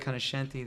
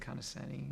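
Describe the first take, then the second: First: The name is pronounced with Italian-style sounds. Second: The name is pronounced with English-style sounds. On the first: It honors the family's ethnic roots. "They put a lean a little more into the ethnic value of the name" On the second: It makes the name easy for others. "I try to make it easy on people"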